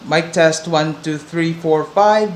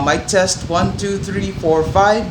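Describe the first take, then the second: First: Wind noise under the voice is reduced. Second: Loud wind noise rumbles under the voice. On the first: "with the dead cat on" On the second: "No dead cut on it. No filters on stock, and there's a lot of wind"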